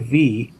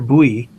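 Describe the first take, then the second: First: It begins with a true V sound. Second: It begins with a B sound, like bui. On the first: The speaker calls it right. "my V" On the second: The speaker calls it wrong. "their their buoy"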